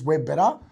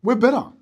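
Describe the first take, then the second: First: Said in the usual way. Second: Higher, louder cocky boast; mock bragging. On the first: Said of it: "a business owner in my industry says". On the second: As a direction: sell it like a smug rival trainer. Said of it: "Why do you wanna train there for?".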